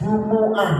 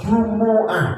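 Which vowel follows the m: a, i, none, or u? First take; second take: u; u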